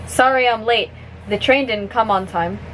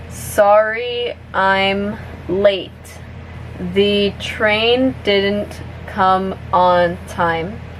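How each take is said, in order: First: The sentence is spoken at natural, fast speed. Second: The sentence is spoken at a medium pace. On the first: "one more time at normal speed" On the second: "a little bit faster now"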